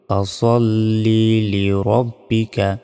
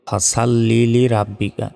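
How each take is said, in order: First: The s sound is heavy and emphatic. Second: The s sound is light and thin. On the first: The speaker calls it right. "এখানে সদ জবর স হয়" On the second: The speaker calls it wrong. "আমরা অনেকে ভুলে এখানে উচ্চারণ করি"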